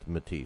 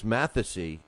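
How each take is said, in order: First: The name is said as Matisse. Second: The name is said as Mathesy. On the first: The speaker calls it right. "I was corrected that that's pronounced Matisse" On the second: The speaker calls it wrong. "I always called uh, Lucas Mathesy"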